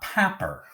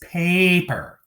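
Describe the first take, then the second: First: The first vowel is a short A. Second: The first vowel is a long A. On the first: The speaker calls it wrong. "not papper with short A" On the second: The speaker calls it right. "paper with long A"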